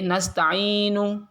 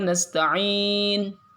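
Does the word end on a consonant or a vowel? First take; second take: vowel; consonant. First: The word ends with an added u vowel. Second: The word ends on a bare n consonant. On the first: The reciter carries on without stopping. The speaker calls it wrong. "Enggak boleh nasta'inu" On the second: The reciter stops at the end of the verse. The speaker calls it right. "Di akhir ayat harus disukun"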